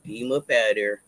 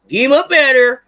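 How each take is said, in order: First: Said in the usual way. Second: Much louder, higher shout; loud repeated order. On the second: Real, not acted. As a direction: yell it to chase the ad away.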